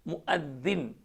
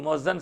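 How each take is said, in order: First: It is said as muaddin. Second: It is said as muazzan. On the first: The speaker calls it right. "सही लफ्ज़ उसका मुअद्दिन" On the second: The speaker calls it wrong. "वो मुअज्जन साहब भी गलत है"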